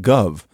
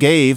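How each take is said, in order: First: The vowel is an 'ah' sound. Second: The vowel is an 'ay' sound. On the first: This is how New Yorkers spoke around 1820. "they say gov" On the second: This is the usual pronunciation. "instead of saying gave"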